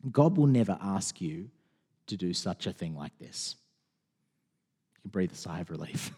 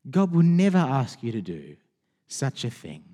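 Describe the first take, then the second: First: Soft reassurance. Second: Said in the usual way. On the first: Real, not acted. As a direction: lower and much softer, calming. Reassuring the congregation softly.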